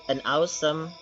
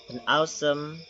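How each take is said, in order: Both takes have the same delivery.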